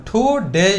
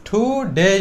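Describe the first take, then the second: No difference in how they are said.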